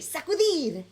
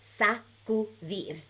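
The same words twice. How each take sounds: First: The word is said super fast. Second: The word is said a bit faster.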